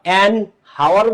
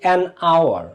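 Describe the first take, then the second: First: The word hour starts with an audible h. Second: The word hour starts with a vowel, no h. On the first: The speaker calls it wrong. "An হাওয়ার বলো নাকি" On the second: The speaker calls it right. "এটা অ"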